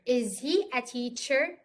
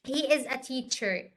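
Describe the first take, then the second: First: "Is he a teacher" slowly, rising at the end; question. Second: "he is a teacher" slowly, falling at the end; statement. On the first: Teacher turns the example around for students, as a slow question. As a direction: ask "Is he a teacher" with "teacher" lifted. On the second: Teacher gives students the example sentence, as a slow statement. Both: Shown as a demonstration. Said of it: "as a question".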